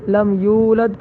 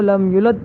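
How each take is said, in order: First: The u vowel after y is held long. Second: The u vowel after y is cut short. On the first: The speaker calls it right. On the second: The speaker calls it wrong.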